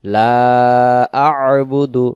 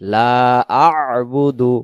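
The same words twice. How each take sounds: First: The throat consonant is clearly sounded after 'la'. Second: The throat consonant is clearly sounded after 'la'.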